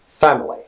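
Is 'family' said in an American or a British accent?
British. The first vowel is an open A sound. "In British English, it's pronounced family"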